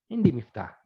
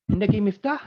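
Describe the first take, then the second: First: Indi miftah in the usual pitch, falling flat on miftah; statement tune falling on miftah; falling answer. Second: Indaki miftah spoken higher, rising on miftah; rising question. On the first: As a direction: answer it, drop miftah at the end. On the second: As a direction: ask it, lift miftah at the end. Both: Shown as a demonstration. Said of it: "intonasi kena betul lah".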